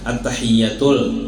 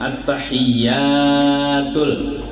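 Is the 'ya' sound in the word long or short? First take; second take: short; long. First: The ya vowel is said short. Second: The ya vowel is said long. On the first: The speaker calls it wrong. "dibacanya pendek alias kada ba alif" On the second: The speaker calls it right. "seharusnya kan at-tahiyyatul"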